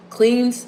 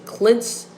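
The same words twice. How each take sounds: First: "cleans" with a long ee vowel; doubtful pronunciation. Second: "cleanse" with a short e vowel; alternative pronunciation. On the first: Unsure speaker trying out a word, "cleans" with long ee. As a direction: say "cleans" to rhyme with beans. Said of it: "probably not saying it right". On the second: Unsure speaker correcting herself, "cleanse" with short e. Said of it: "what they say, cleanse". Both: Shown as a demonstration.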